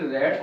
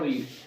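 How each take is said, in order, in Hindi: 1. स्वर छोटी e ध्वनि है। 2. स्वर लंबी ee ध्वनि है। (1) "उसे हम पढ़ते रेड है" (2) "थर्ड फॉर्म"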